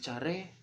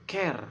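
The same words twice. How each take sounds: First: It is read out the way it is spelled. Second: It is said with its English pronunciation. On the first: "tertulis care" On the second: "dalam bahasa Inggris kita menyebutkannya care"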